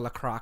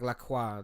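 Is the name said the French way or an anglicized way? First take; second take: anglicized; French. First: The name is said with English vowel sounds. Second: The name is said with French vowel sounds. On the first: This is how uncultured people say the name. The speaker calls it wrong. "uncultured people call it La Croix" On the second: This is how the name is properly pronounced. The speaker calls it right. "So it's like La Croix. That's like the pronunciation"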